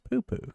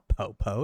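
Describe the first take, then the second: First: Each syllable has an 'oo' vowel sound. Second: Each syllable has an 'oh' vowel sound. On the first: The speaker calls it right. "It's poo-poo" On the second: The speaker calls it wrong. "It's not po-po"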